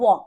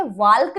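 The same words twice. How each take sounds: First: Walk as "wawk"; silent l. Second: वाल्क with the l sounded; wrong pronunciation. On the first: Teacher giving the correct word, walk with silent l. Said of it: "it's walk". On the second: Teacher showing what not to say, वाल्क with an audible l. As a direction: voice the l before k in वाल्क. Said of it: "वाल्क नहीं है". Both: Shown as a demonstration.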